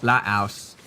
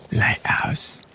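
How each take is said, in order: First: Said in the usual way. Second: Unvoiced whisper, a bit loud; breathy whispered Lighthouse. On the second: Shown as a demonstration. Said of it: "that was a bit loud for a whisper".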